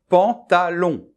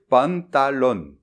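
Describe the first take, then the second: First: The vowels are nasal with no N sounds. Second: The vowels are followed by audible N sounds. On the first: The speaker calls it right. "Je vais dire par exemple pantalon" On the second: The speaker calls it wrong. "je ne dois pas dire pantalon"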